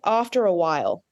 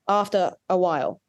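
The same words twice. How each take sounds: First: Said quickly, with an R linking into 'a'. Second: Said slowly, with no R linking into 'a'. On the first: "it's an R that occurs in rapid spoken speech" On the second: "if I slow it down"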